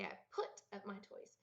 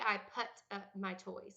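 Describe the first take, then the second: First: The vowel in put sounds like foot. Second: The vowel in put sounds like but. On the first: The speaker calls it right. "I say" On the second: The speaker calls it wrong. "I don't say"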